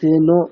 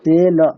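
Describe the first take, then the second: First: The final vowel is rounded, like o. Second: The final vowel is open, like a. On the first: The speaker calls it wrong. "সে নো এরকম না" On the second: The speaker calls it right.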